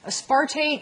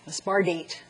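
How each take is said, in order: First: The middle consonant is a clear T sound. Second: The middle consonant is softened to a D sound.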